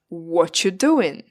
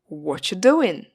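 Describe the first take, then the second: First: 'Are' is dropped and the words run together. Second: The same.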